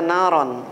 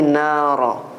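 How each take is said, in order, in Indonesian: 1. Kata ini berakhir dengan bunyi n. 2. Kata ini berakhir dengan vokal a panjang. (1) "Tak dibaca naron" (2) "tapi nara"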